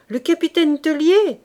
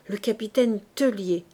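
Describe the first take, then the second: First: Loud, higher call over the din; shouted name. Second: Said in the usual way. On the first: Acted. Soldier shouting the captain's name to Fabrice over the guns, loud. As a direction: yell le capitaine Tellier? as if over cannon fire. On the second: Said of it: "se dit Fabrice".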